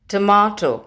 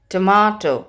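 First: It is said in a British English accent. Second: It is said in a British English accent.

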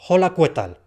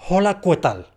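Both takes have the same delivery.

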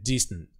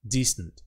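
The two takes are said the same way.

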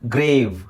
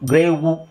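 First: The word ends on the v consonant. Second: The word ends with an added u vowel. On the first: The speaker calls it right. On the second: The speaker calls it wrong.

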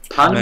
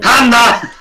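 First: The word is said at normal volume. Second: The word is shouted loudly.

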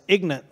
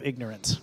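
First: The word is clipped short in a Southern accent. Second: The word is said in full in standard form.

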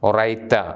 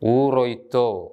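First: The word ends with an a vowel. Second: The word ends with an o vowel. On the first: This is the East Syriac pronunciation. "East സിറിയക് ഉച്ചാരണമാണ് ഒറൈത്ത" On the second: This is the West Syriac pronunciation. "West സിറിയക് ഊറോയ്ത്തോ"

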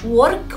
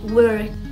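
First: The vowel and r sound Arabic-accented. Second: The vowel blends into an English r sound. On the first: The speaker calls it wrong. "مش work" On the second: The speaker calls it right. "لا work"

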